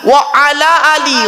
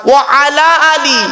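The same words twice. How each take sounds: The two takes are said the same way.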